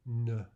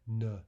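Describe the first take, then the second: The two takes are said the same way.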